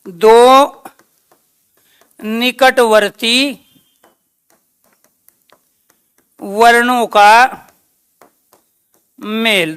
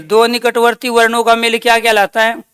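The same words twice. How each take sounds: First: Slow, word by word with long pauses; slow dictation. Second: Said in the usual way. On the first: Shown as a demonstration. Teacher dictating a definition slowly to the class. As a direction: dictate it slowly so they can write. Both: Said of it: "दूसरा question क्या है इसका?".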